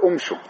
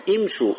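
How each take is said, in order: First: "امشوا" begun with u, "umshu"; wrong damma start. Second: "امشوا" begun with i, "imshu"; kasra on the hamza. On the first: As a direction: open "امشوا" on a short u, as the counter-example. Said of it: "ولا تقول". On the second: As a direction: open "امشوا" on a short i sound. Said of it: "إذا أردت أن تبدأ بامشوا تقول إيش؟". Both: Shown as a demonstration.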